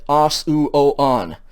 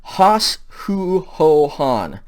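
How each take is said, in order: First: "os, u, o, on" starting on bare vowels; no rough breathing. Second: "Hos, hu, ho, hon" each starting with h; aspirated forms chanted one by one; rough breathing. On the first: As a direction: begin os, u, o, on with no h sound. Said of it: "so they're not os". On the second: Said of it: "the rough breathing mark on all of them". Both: Shown as a demonstration.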